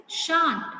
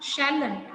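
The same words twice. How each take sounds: First: "shan't" as one long syllable, no l; correct contraction shan't. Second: "shalln't" as shall plus a tacked-on n't, two syllables; wrong contraction shalln't. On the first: Teacher correcting students' contraction, correct "shan't" in one drawn-out syllable. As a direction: drop the l and stretch "shan't" slowly, pitched higher. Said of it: "This is not shalln't, this is shan't".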